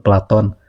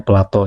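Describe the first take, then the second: First: The name ends in an n sound. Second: The name ends in a vowel sound. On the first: This is the proper pronunciation. The speaker calls it right. "yang betul itu sebetulnya pelafalannya itu Platon" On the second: This is how people commonly say it. The speaker calls it wrong. "kita menyebutnya Plato ya"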